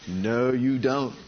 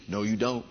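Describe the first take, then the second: First: Very slow, lowered denial; slow, deliberate contradiction; drawn-out rebuttal. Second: Low, soft, matter-of-fact denial; quiet, unstretched warning; low rebuttal. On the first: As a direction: stretch every word as a warning. Repeated rebuttal, drawn out for emphasis. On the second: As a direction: contradict it quietly at normal pace. First take of repeated rebuttal. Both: Real, not acted.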